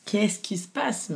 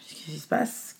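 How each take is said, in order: First: Qu'est-ce qui se passe rising higher and slower; anxious repeated question. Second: Qu'est-ce qui se passe asked softly, almost to herself; quiet worried question. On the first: Mother sensing trouble after birth, anxious higher plea. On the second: Mother in recovery room asking softly, quiet worry. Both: Retold or imitated. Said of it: "je pleure, en fait".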